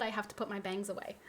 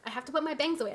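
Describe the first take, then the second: First: Said in the usual way. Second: Higher, louder, fussed repeat; worked-up repeat. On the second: Real, not acted. Streamer flustered at her own anger, fixing her hair, higher and louder. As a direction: say it again, flustered and heated. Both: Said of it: "I'm getting so heated".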